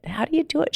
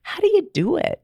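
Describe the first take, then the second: First: Softer, wondering echo of her own question; softer repeat. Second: Pitched way up, pleading to know; high, eager imitation of her past self asking a happy friend; eager question. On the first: Retold or imitated. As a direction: still high but softer, almost to herself. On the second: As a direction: beg her for the secret, high and bright. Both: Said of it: "And I'm like".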